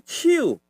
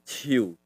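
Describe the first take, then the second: First: Ciu pitched high then falling sharply; hand intonation. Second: Ciu low, falling away; tree intonation. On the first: Teacher contrasts hand with tree, ciu high falling. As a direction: start ciu high and drop it. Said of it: "jadi tangan". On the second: Teacher shows the tree intonation, ciu low falling. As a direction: let ciu drop low. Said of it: "intonasinya ciu". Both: Shown as a demonstration.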